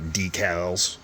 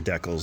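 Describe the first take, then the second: First: It is said with a non-Canadian pronunciation. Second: It is said with a Canadian pronunciation. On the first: The speaker calls it wrong. "not decals" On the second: The speaker calls it right. "I'm Canadian. These are decals"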